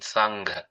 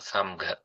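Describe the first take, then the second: First: The nasal before the g is an ng sound. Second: The nasal before the g is an m sound. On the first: The speaker calls it right. "the nasal sound like in sangha" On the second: The speaker calls it wrong. "not with the M sound"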